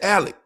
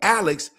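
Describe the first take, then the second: First: The name ends with a plain k sound. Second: The name ends with a ks sound. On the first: This is how country people say the name. "they so country, they say Alec" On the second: This is the standard form of the name. "they don't say Alex"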